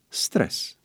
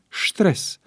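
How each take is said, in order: First: The word is pronounced in an English-like way. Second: The word is pronounced in a German-like way. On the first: The word comes from English. The speaker calls it right. "el provine din englezescul stres" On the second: The word is assumed to come from German. The speaker calls it wrong. "pe care unii vorbitori preferă să-l pronunțe stres, crezând că provine din germană"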